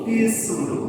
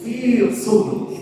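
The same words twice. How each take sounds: First: The s sound is plain and light. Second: The s sound is heavy and emphatic. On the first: The speaker calls it wrong. "fisur berarti sin" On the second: The speaker calls it right. "Kalau sod"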